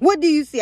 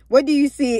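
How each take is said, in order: First: It is said in a put-on witch voice. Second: It is said in Saul's voice.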